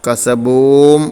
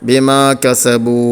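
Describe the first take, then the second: First: The lips close, adding an m sound. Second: The word ends on an open vowel. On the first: The speaker calls it wrong. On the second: The speaker calls it right.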